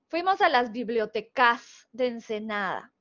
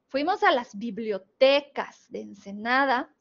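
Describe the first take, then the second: First: The stress in bibliotecas is on o. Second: The stress in bibliotecas is on te. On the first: The speaker calls it wrong. "No se escucha bien, no se escucha natural" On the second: The speaker calls it right. "ya se escucha mucho mejor"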